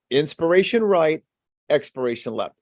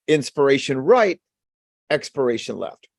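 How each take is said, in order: Both takes have the same delivery.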